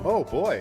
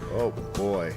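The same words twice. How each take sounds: First: It sounds enthusiastic and heartfelt. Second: It sounds flat and unenthusiastic.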